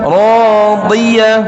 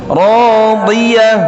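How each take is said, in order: The two takes are said the same way.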